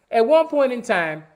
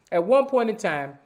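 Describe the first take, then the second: No difference in how they are said.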